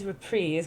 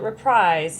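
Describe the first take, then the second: First: The word is said with a French pronunciation. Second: The word is said with a common English pronunciation. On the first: This is the technically correct form. "technically it is reprise because it's a French word and that's how you pronounce it" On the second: This is how most people say it. "But everyone calls it reprise"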